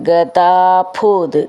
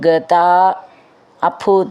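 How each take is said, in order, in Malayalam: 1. ഈ രണ്ട് വാക്കുകളും ഒന്നിച്ചു ചേർത്താണ് പറയുന്നത്. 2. ഈ രണ്ട് വാക്കുകളും വേറെ വേറെയായാണ് പറയുന്നത്.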